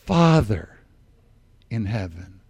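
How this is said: It is said slowly, with deep feeling. The words are meant sincerely. The speaker calls it right. "I'm praying these words"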